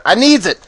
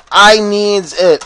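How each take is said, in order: First: I needs it snapped out quick and bright; mock-childish demand; silly exclamation. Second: I needs it stretched slow and loud; hammed-up whiny craving; drawn-out mock plea. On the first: Gamer jokingly demanding his vengeance spell, quick silly demand. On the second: Gamer jokingly begging for vengeance, slow hammed-up plea.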